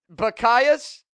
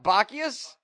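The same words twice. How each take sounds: First: The stress is on the second syllable. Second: The stress is on the first syllable. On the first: The speaker calls it right. "I was putting the emphasis on the wrong syllable" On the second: The speaker calls it wrong. "I was saying what? ... I was saying it completely wrong"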